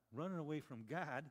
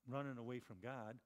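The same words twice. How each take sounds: First: Running away from God? asked with disbelief; a preacher questions the sailors' news in disbelief; incredulous question. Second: Said in the usual way. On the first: Shown as a demonstration.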